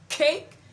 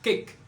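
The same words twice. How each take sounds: First: The k is released with a puff of air. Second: The k is released with no puff of air. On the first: The speaker calls it right. "a encore la même caractéristique que to et po" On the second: The speaker calls it wrong. "et non"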